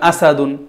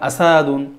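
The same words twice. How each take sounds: First: The vowels are kept short without lengthening. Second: A vowel is drawn out with extra length. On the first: The speaker calls it right. "যেখানে টান নেই ওখানে টান দেওয়া যাবে না" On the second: The speaker calls it wrong. "এখানে যদি পড়েন আসাদুন, জামালুন তাহলে এটা ভুল হবে"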